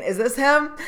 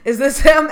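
First: Higher, urgent question; higher, worried asking. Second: Much louder, higher, near-shouted question; loud, frantic calling; loud urgent asking. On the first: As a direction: ask it anxiously, hoping. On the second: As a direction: call it out, desperate to find him. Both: Retold or imitated. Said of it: "people were picking them up and saying".

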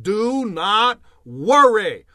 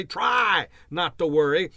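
First: Slow, louder, every word weighted: "Do not worry."; firm command. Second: Said in the usual way. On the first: Shown as a demonstration. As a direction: lay it down as a firm order, "Do not worry." slowly. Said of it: "He said". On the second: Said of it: "Jesus didn't say".

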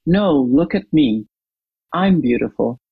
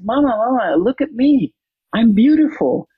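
First: Lightly voiced mother claiming the attention for herself; a hint of a grown woman's dismissive reply; mother's retort. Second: Put-on higher, excited little girl calling her mama; a girl's higher, eager call for her mother's attention. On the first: Mother's retort in retold story. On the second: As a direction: show off your new dress to Mama like a proud six-year-old. Child voice in retold story.

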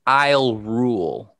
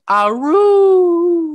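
First: Slow quoted "I'll rule"; drawn-out imitation of the lyric; quoting the singer. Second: High, slow, howling "I'll rule"; wolf voice. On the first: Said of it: "she says". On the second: Retold or imitated. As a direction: howl the words like a wolf girl. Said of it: "sounds like she's a wolf girl going".

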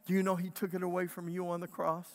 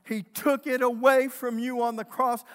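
First: Said in the usual way. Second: Louder, higher restatement hammered home; preached proclamation. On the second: Acted. Preacher declaring it to the congregation, louder proclamation. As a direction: declare it to them as truth.

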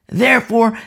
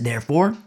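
First: Therefore said higher and louder; emphatic repeat. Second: Said in the usual way. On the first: Acted. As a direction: punch the second therefore.

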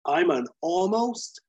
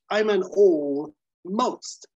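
First: Said in the usual way. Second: "all most" as two slow separate words, both stressed; split all most. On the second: Retold or imitated. Bob reframing almost as all most, stretched out. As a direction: pull "all most" apart, slowly, each word hit. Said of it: "meaning I have it all".

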